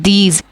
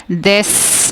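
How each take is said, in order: First: "these" said as "deez", long "ee" and z ending; correct long E. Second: "this" said as "dess", short vowel and long hissed s; wrong short vowel. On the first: Teacher gives the magic E reading, "these" as long "deez". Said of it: "this is these". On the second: Teacher warns learners off a misreading, "this" as "dess". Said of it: "इसको आप this नहीं खोलेंगे". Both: Shown as a demonstration.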